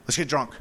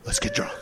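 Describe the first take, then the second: First: Low, soft, dry deadpan; mumbled low leader's deadpan. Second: High, soft, airy deadpan; leader's lazy high-pitched reply. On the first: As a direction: toss it off flatly, unbothered. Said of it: "leans his head back and goes". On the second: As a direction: float the words up high, unbothered. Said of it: "The guy just leans his head back". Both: Retold or imitated.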